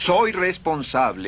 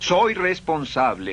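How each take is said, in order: First: It is said with strong, warm feeling. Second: The same.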